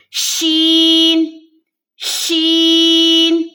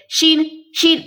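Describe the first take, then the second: First: شین held long and slow with spreading ش and ringing ن; chanted شین; drawn-out letter name. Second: شین clipped, dropping the final ن; wrong شین; wrong pronunciation. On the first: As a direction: stretch شین, end on a clear ن. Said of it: "آخر میں نون کی ساؤنڈ آنی چاہیے". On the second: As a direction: say شین short without the ن. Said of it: "غلط ہے یہ". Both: Shown as a demonstration.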